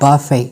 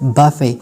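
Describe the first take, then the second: No difference in how they are said.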